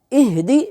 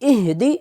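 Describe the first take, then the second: Both takes have the same delivery.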